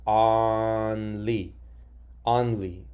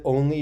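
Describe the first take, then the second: First: Only said with the short O of octopus, ah-nly; rule-based misreading. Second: Only said with a long O, like own; correct pronunciation. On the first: Teacher testing the sound spelling card rules on a word. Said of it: "doesn't sound right". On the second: Teacher confirming the right answer to students. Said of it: "you're correct". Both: Shown as a demonstration.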